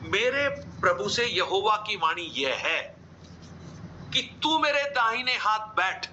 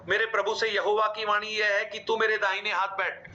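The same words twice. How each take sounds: First: There is a short pause after 'यह है'. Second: It runs on without a pause after 'यह है'. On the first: The speaker calls it right. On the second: The speaker calls it wrong.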